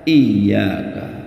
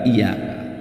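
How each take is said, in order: First: The y sound is doubled and held long. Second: The y sound is single and short. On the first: It means you alone. The speaker calls it right. "wajib dibaca iyyaka" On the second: It means sunlight. The speaker calls it wrong. "bukan iyyaka, tanpa tasdid"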